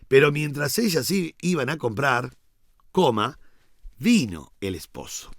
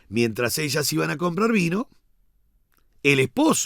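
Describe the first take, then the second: First: The pause falls before the word vino. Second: The pause falls after the word vino. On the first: The bridegroom arrived while they were away buying. The speaker calls it right. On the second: They went to buy wine, and the bridegroom went in. The speaker calls it wrong. "yo por correr una coma, cuatro letras, yo hago de un verbo un sustantivo"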